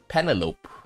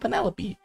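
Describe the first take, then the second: First: It is said with a Japanese pronunciation. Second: It is said with a usual English pronunciation. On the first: "if you give it to a Japanese, they'll they'll pronounce it probably as Penelope" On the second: "for us when we see that name, like we know, okay, that name is Penelope"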